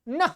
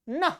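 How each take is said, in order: Both takes have the same delivery.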